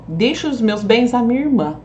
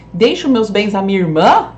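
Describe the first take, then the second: First: "irmã" falling, as a settled statement; statement intonation. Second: "irmã" rising loud, as a question; question intonation. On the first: Teacher reading the sister's version, statement falling on "irmã". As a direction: let "irmã" fall, affirming the bequest. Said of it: "pra deixar pra irmã, ó". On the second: Teacher reading the nephew's version, questioning rise on "irmã". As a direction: lift "irmã" sharply into a question. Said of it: "como que eu deixaria pro sobrinho". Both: Shown as a demonstration.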